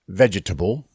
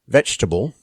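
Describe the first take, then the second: First: Every written syllable is pronounced in the word. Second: One written syllable is dropped from the word. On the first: The speaker calls it wrong. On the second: The speaker calls it right. "more syllables written than there are pronounced"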